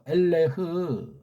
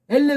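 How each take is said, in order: First: The word ends with an audible h sound. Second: The word ends on the vowel, without h. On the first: The speaker calls it right. "엘레가 아니고 엘레흐라고 읽어줘야죠" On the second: The speaker calls it wrong. "엘레 그러면 어떡합니까?"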